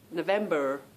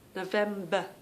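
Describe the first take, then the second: First: The final R sound is pronounced. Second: The final R sound is dropped. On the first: "This is how I tried to learn that R R sound" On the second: "we lose the R, and we just have that uh sound"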